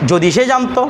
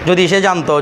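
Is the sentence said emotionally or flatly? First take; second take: emotionally; flatly. First: It is said with wistful, emotional feeling. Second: It is said flatly, without feeling. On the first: The speaker calls it right. "আপনি এটাকে আবেগ নিয়ে বলবেন" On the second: The speaker calls it wrong. "আপনি যদি কিছু না বলে"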